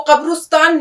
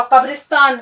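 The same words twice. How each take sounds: First: قبرستان as qab-rus-taan, short u after r; wrong pronunciation. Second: قبرستان as qab-ris-taan, short i after r; correct pronunciation. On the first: Teacher showing what it is not, قبرستان as qabrustaan. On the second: Teacher introducing the word, قبرستان as qabristaan. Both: Shown as a demonstration. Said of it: "وہ قبرستان نہیں ہے".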